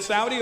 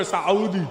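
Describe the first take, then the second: First: Said in the usual way. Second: Saudi split as "Sa-OO-di"; Arabic pronunciation. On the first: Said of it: "Is it Saudi or Saudi?". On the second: Shown as a demonstration. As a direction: say Saudi with a catch before a long "oo". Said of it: "I thought he hiccuped".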